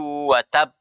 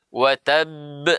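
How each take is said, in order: First: The final b closes without any echoing release. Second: The final b is released with a bouncing echo. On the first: The speaker calls it wrong. "Tidak benar ketika kita membaca" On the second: The speaker calls it right. "dikeluarkan sifatnya yang namanya qalqala"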